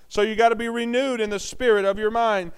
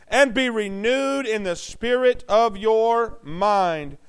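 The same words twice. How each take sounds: First: Said in the usual way. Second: Each word of "and be renewed in the spirit of your mind" drawn out slowly; solemn slow scripture; slow reading. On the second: Shown as a demonstration. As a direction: read the verse word by word.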